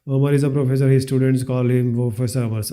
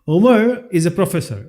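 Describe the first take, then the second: First: The sentences run together without a pause. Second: There is a clear pause after the first sentence. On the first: The speaker calls it wrong. "This is not the way we should" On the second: The speaker calls it right. "Sentence is finished"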